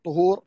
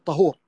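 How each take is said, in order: First: طهور said with a u on the ta, tuhur; tuhur with damma. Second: طهور said with an open a on the ta, tahur; tahur with fatha. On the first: Teacher contrasting for students, طهور voiced tuhur with damma. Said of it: "بضم الطاء طهور". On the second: Teacher to students, طهور voiced tahur with fatha. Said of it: "بفتح الطاء". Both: Shown as a demonstration.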